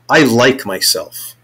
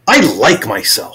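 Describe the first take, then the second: First: It is said with low intensity. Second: It is said with medium intensity.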